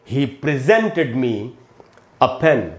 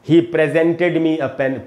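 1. बलाघात दूसरे शब्दांश पर है। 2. बलाघात पहले शब्दांश पर है। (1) "तो मैं बोलूंगा" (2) "न कि"

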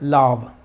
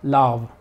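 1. La vocal es larga. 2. La vocal es larga.

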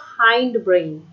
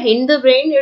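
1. hind में स्वर 'eye' जैसा है। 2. hind में स्वर छोटा 'i' है। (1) "it is a हाइंड brain" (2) "इसे हिंड मत कहिएगा, बहुत सारे बच्चे इसको गलत प्रोनाउंस करते हैं"

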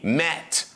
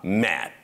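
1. Финальный T чётко произносится. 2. Финальный T не произносится. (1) "Не mat" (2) "не произносят Ти в конце слов"

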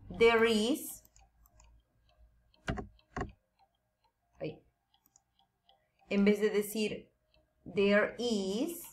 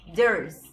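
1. Se dice como dos palabras separadas y completas. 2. Se dice como una sola palabra contraída. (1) "En vez de decir there is" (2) "decimos there's en contraction"

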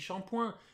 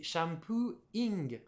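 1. Il est prononcé à la française. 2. Il est prononcé à l'anglaise. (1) "on dit shampoing" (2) "c'est shampooing"

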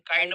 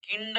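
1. स्वर 'eye' आवाज आहे. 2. स्वर छोटा 'i' आवाज आहे. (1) "काइंड म्हणेल" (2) "किंड म्हणणार नाही"

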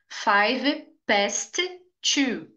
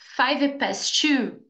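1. Os dois sons de T são pronunciados separadamente. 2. Só um som de T é pronunciado. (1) "past termina com T e 2 começa com T" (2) "Você pode dizer apenas um T e sempre vai ser o da segunda palavra"

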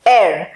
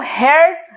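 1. यह शब्द स्वर से शुरू होता है, इसमें h की आवाज़ नहीं है। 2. यह शब्द h की आवाज़ से शुरू होता है। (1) "इसको बोला जाता है एयर" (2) "इसको हेयर्स नहीं बोला जाएगा, ह का आवाज इसके अंदर आएगा ही नहीं"

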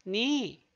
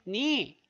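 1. k 소리는 n 앞에서 묵음입니다. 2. k 소리는 n 앞에서 묵음입니다.

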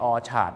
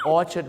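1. พยางค์สุดท้ายเป็นสระเต็มเสียง 2. พยางค์สุดท้ายเป็นสระลดเสียง (1) "ไม่ใช่" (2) "ARD ต้องเป็นสระเอ"

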